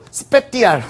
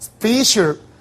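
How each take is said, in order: First: The middle consonant is a hard t sound. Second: The middle consonant is a soft sh sound. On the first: The speaker calls it wrong. "이거 발음도 스페티알 뭐 이렇게 할 텐데" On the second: The speaker calls it right. "스페셜 이렇게 발음됩니다"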